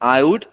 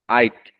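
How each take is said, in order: First: Both words are said fully and separately. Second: The words are squeezed into one short syllable.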